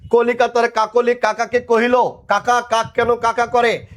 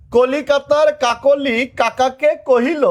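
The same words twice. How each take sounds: First: Said in the usual way. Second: High, slow, every K sound in কলিকাতার কাকলি কাকাকে কহিল pressed out; teacher spells out কলিকাতার কাকলি কাকাকে কহিল slowly, each ক stressed; slow tongue twister. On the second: Shown as a demonstration. Teacher showing students the twister slowly, pressing each K sound. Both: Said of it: "Milan".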